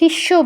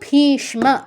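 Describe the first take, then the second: First: The m is absorbed, not pronounced separately. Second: Both the s and the m are pronounced. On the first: This is the everyday Bengali way. "Bangla হলে ভীষ্ম বলতাম" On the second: This is the Sanskrit way. "স আর ম উচ্চারণ করতে হবে"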